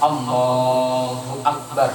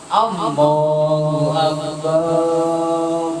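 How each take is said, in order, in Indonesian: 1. Suku kata 'ba' pada 'akbar' dibaca pendek. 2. Suku kata 'ba' pada 'akbar' dibaca panjang. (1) "Akbarnya juga jangan panjang-panjang" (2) "Tapi itu salah. Karena ba-nya itu tidak boleh dipanjangkan"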